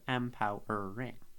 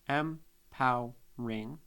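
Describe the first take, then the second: First: The word is said with four syllables. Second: The word is said with three syllables. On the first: "instead of empowering" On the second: "apostrophe out the E to be empowering"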